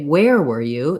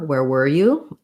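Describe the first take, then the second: First: The word where carries the main stress. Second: The word were carries the main stress. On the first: "if I knew that they were somewhere, but I didn't know where" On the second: "we're probably going to be stressing where, uh, were"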